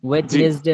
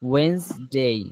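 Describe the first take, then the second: First: A 'd' sound is said in the middle. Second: No 'd' sound is said in the middle. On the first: The speaker calls it wrong. "ওয়েডনেসডে না" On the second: The speaker calls it right.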